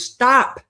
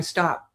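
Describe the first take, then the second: First: Higher and louder stop; firmer stop. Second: Said in the usual way. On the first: Retold or imitated. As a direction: cut her off hard. Martha insists, second stop.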